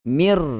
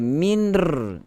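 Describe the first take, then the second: First: The n merges fully into the r. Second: An n sound is heard before the r. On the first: The speaker calls it right. "masuk mir" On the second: The speaker calls it wrong. "dia tidak ada minr"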